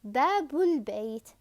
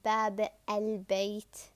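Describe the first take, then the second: First: The words link with a 'u' before the l. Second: The words are separated with a full 'al'. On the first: The speaker calls it right. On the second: The speaker calls it wrong.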